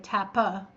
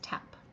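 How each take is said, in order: First: An extra vowel sound follows the final p. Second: The word ends on a bare p sound. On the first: The speaker calls it wrong. "you don't say tappa" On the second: The speaker calls it right. "it's just tap"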